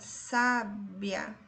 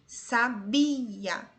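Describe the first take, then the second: First: The stress is on the first syllable. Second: The stress is on the middle syllable. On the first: "A penúltima sílaba é a tônica" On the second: "A sílaba tônica em sabia é bi"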